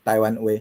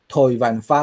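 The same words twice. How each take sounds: First: Said in the usual way. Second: 台湾话 said the Hakka way as thoi wan fa, aspirated th and oi; Hakka pronunciation. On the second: Shown as a demonstration. Teacher showing the Hakka word, thoi wan fa. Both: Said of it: "客语内底伊的台湾话发音啦".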